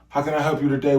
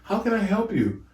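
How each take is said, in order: First: It is said in a casual, slangy voice. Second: It is said in a polite, standard voice.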